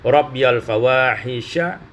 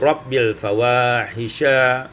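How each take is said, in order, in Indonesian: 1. Bunyi 'ya' terdengar setelah 'rabbi'. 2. Tidak ada bunyi 'ya' setelah 'rabbi'. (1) "rabbiyal fawahisha menjadi" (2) "menjadi rabbil fawahisha"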